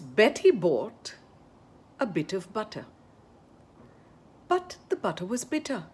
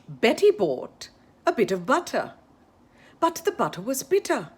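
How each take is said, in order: First: It is said at a slower, careful pace. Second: It is said at a faster, quicker pace.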